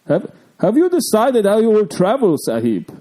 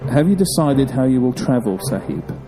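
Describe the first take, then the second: First: It is read in a put-on Salah voice. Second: It is read in his normal voice.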